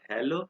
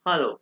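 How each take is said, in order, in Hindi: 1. पहला स्वर 'eh' जैसा बोला जाता है। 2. पहला स्वर 'ah' जैसा बोला जाता है। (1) "इट इज नॉट हेलो" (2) "ये मोस्ट कॉमन वर्ड है हालो"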